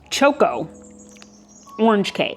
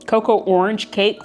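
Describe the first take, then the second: First: The first word starts with a 'ch' sound. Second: The first word starts with a 'k' sound. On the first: The speaker calls it right. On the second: The speaker calls it wrong.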